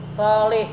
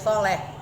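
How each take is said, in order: First: The last vowel sounds like 'i'. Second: The last vowel sounds like 'e'. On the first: This is the original Arabic form. "solaha yasluhu solih" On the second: This is how Indonesians commonly say it. "Orang Indonesia bilangnya dia soleh"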